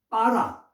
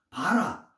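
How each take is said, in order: First: The first consonant is a tense p sound. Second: The first consonant is a plain b sound. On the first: The speaker calls it right. "빠라도 이 빠라 안에 강점이 있고" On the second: The speaker calls it wrong. "그냥"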